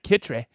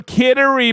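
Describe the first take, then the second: First: "Kittery" said in two syllables, KIT-tree, with a crisp t; local Maine pronunciation. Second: Said in the usual way. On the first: Shown as a demonstration. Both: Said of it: "You know how you're supposed to say that?".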